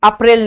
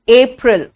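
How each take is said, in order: First: अप्रैल as "up-rail"; wrong Hindi form. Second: अप्रैल as "AY-pril"; English अप्रैल, opening on ay; correct English pronunciation. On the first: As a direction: say अप्रैल with a short Hindi a first. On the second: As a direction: model अप्रैल with a long English ay first. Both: Shown as a demonstration. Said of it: "अप्रैल नहीं".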